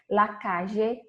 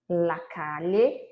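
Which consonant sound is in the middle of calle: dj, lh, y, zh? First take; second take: zh; lh. First: The double L sounds like a soft zh. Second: The double L sounds like Portuguese lh. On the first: "com som de, de J" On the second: "com L H"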